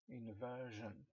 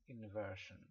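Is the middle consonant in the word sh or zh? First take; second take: zh; sh. First: The middle consonant is a voiced zh sound. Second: The middle consonant is a voiceless sh sound. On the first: "The first one is with the sound J" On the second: "the second one is with the sound sh"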